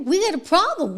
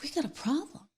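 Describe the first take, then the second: First: Higher and firmer, stress on got; emphatic repeat. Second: Much softer, almost breathed; hushed lament. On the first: Host repeating the warning to viewers, higher and emphatic. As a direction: lift it into an alarm. Lamenting desensitized people. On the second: Host lamenting society, in a hushed grave voice. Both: Real, not acted.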